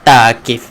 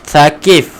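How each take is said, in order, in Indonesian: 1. Nama ini diawali dengan bunyi 't' biasa. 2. Nama ini diawali dengan bunyi 'th' yang lembut. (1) "Bukan Taqif" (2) "bila ditulis T H A kita akan baca dengan tha"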